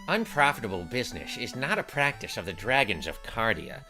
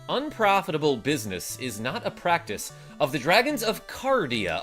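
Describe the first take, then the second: First: It is read in a put-on character voice. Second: It is read in the speaker's natural voice. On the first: The speaker calls it right. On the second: The speaker calls it wrong.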